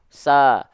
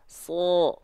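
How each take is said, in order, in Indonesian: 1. Vokalnya adalah 'a' yang tipis dan ringan. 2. Vokalnya adalah 'o' yang berat dan membulat. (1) "tidak kita lafalkan" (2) "Tapi dia kita lafalkan"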